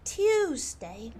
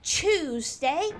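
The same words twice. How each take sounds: First: "Tuesday" with a clean T-yoo; correct pronunciation demo. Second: "Tuesday" with a slurred Chooz start; "Tuesday" slowly, T blurred into ch; wrong pronunciation demo. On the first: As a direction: say "Tuesday" as T-yooz-day. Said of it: "You need to pronounce the T". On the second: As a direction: say "Tuesday" as Chooz-day, drawn out. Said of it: "Not Tuesday". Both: Shown as a demonstration.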